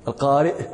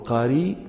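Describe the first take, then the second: First: It ends in a glottal stop after the vowel. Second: It ends in a long vowel without glottal stop.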